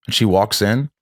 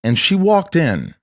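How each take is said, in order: First: Said in the usual way. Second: And she walked in, slowed right down, each word landed; slow dramatic retelling. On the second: Retold or imitated. Recalling the visit that changed her, slow and weighty. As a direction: drag out walked as if the moment still stings. Repeats the line slowly for weight.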